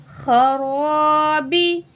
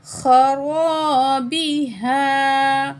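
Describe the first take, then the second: First: खराबी with a heavy, thick ख and र, drawn out; खराबी slowly with full heavy letters; heavy kha and ra. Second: खराबी हा with a thick ख and र and the alif held long; खराबी हा drawn out with heavy ख; heavy kha and ra, long alif. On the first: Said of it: "खा को मोटा पढ़ेंगे". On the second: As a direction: stretch खराबी हा with heavy letters. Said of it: "खा को भी मोटा पढ़ेंगे". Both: Shown as a demonstration.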